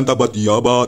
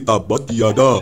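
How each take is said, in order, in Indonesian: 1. Kata kedua diucapkan dengan bunyi b. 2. Kata kedua diucapkan dengan bunyi d. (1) "bukan tabat tiaba" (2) "tapi tabat tiada"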